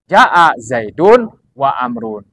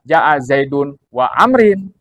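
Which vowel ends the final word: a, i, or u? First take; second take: u; i. First: The last word ends with a u sound. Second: The last word ends with an i sound. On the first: The speaker calls it right. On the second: The speaker calls it wrong. "Jangan dibaca ... ini salah"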